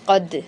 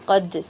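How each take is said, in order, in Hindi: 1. अंतिम d में हल्की सी गूंज वाली उछाल होती है। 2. अंतिम d में हल्की सी गूंज वाली उछाल होती है।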